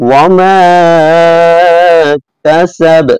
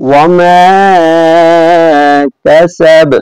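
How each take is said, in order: No difference in how they are said.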